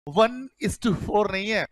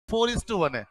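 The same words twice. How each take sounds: First: Said in the usual way. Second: Four is to one, with "four" said first and clearly; stress on four. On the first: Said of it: "वही वाली बात है". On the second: Shown as a demonstration. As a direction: put the weight on four. ("four" पर ज़ोर देकर)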